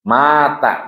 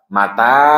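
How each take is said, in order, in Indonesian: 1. Suku kata pertama dipanjangkan. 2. Suku kata kedua dipanjangkan. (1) "Mata itu yang ma, ma wafat" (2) "Beda sama mata"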